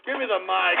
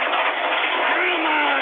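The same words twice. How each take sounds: First: Said in the usual way. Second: High, slow, drawn-out roar; enraged yell. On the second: Real, not acted. Host demanding the mic in a fit, enraged yell. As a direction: blow up and stretch the words out.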